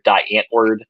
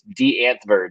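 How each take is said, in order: First: The name is said with an American pronunciation. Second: The name is said with a South African pronunciation. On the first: This is how people pronounce it locally. "as we pronounce it here" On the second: This is how the band's home country pronounces it. "is the way they pronounce it, I guess, over there"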